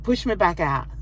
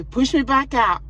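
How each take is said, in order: First: Said in the usual way. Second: Higher and louder insistence; insistent repeat. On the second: Retold or imitated. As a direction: repeat it, now firmer and pleading.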